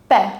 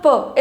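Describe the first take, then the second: First: The vowel is an open 'eh' sound. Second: The vowel is a neutral 'uh' sound. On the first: The speaker calls it right. "the pronunciation of E changes from E to A" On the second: The speaker calls it wrong. "So now it is not P"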